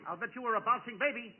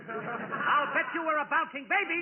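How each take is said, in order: First: Said in the usual way. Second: Put-on "I'll bet you were a bouncing baby" repeated a bit louder, pushed out; repeated louder to be heard. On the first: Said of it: "Nobody hears me". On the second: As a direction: say it again so they finally hear it. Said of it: "You said that once".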